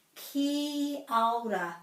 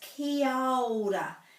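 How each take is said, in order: No difference in how they are said.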